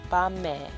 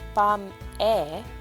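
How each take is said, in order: First: The final consonant carries over into the next syllable. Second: The two syllables are said separately, unlinked. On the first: "it's pronounced bame" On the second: "it's spelled bam-e"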